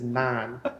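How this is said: The vowel sounds like the 'ay' sound. The speaker calls it right. "There's no I. It's an A"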